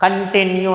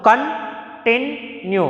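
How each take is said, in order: First: Said in the usual way. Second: continue drawn out very slowly, syllable by syllable, second syllable stressed; slow syllable demo. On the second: Shown as a demonstration. Teacher demonstrates syllables of continue, very slow. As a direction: spell out continue slowly for the class, leaning on the middle syllable. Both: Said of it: "second syllable పైన మనకు stress వస్తుంది".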